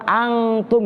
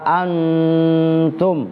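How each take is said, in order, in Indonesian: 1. Bunyi sengau sebelum t dibaca ng. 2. Bunyi sengau sebelum t dibaca n. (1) "Kalau kalian belajar Iqra kan angtum gitu kan" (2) "Tapi saya diajarin nama guru dalam ilmu qiraah wala antum"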